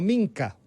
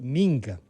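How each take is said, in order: First: The middle consonant is a hard k sound. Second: The middle consonant is a g sound. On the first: "nos proponen como Minca, usando, y tiene un sentido, usando la K" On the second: "yo creo que debe pronunciarse Minga"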